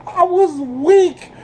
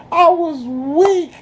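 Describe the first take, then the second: No difference in how they are said.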